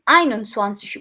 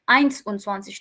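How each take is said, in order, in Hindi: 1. पहला भाग s ध्वनि पर खत्म नहीं होता। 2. पहला भाग s ध्वनि पर खत्म होता है। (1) "इक्कीस को हम आइन उनसवांसिश बोलते हैं" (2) "आइंस उनसवांसिश नहीं बोलते"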